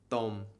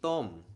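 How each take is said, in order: First: The pitch stays level through the word. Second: The pitch falls through the word. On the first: The speaker calls it wrong. "instead of saying it like tom" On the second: The speaker calls it right. "it should sound like tom"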